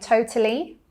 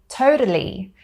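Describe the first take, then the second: First: The middle T is a clear T. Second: The middle T is a soft tap. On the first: "they wouldn't pronounce it like me" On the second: "They would say it more with a tap T sound"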